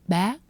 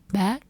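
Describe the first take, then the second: First: The pitch is high and rises. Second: The same.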